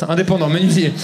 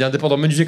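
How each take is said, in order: First: "Indépendant menuisier" with a lisp, s said as th. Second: Said in the usual way. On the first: Retold or imitated. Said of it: "je t'ai fait zozoter". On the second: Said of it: "Il m'a dit".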